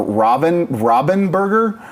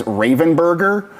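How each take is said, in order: First: Robinburger with RAH as first vowel, drawn out; alternative pronunciation. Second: Ravenburger with a long A, RAY-ven; another host's pronunciation. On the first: Quoting Bonsai's other version, Robinburger said slowly as RAH-bin-burger. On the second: Quoting Bonsai's version, Ravenburger said RAY-ven-burger. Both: Retold or imitated. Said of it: "Bonsai often just says".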